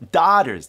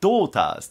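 First: The first vowel is an open 'ah' sound. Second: The first vowel is a rounded 'aw' sound. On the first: "アメリカ英語だったらdaughters ですね。" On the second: "イギリスではdo って言うんですよね。この紫イコールO だから"

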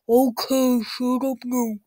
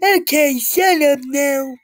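First: It is said in a deep voice. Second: It is said in a nicer voice.

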